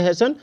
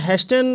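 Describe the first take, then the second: First: The t sound is silent in the middle. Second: The t sound is pronounced in the middle. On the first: The speaker calls it right. "ये इसको बोलेंगे हेसन" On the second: The speaker calls it wrong. "हेस्टन नहीं बोलेंगे"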